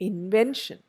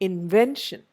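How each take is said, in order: The two takes are said the same way.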